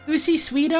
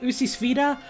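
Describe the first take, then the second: First: The consonant after the S is a W sound. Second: The consonant after the S is a V sound. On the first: "if the W's are pronounced as V's uh, or W's" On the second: "or maybe"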